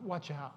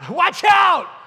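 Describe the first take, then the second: First: It is said calmly and quietly. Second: It is said loudly and urgently.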